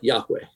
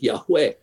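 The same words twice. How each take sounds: First: The stress is on the first syllable. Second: The stress is on the last syllable. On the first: The speaker calls it wrong. "But they're like Yahweh" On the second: The speaker calls it right. "The accent would be on the last syllable"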